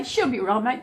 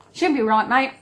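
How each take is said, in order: First: Said in the usual way. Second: Aussie saying. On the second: Shown as a demonstration. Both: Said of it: "That's what we say".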